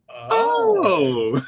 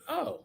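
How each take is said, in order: First: It sounds surprised and impressed. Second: It sounds flat and unimpressed.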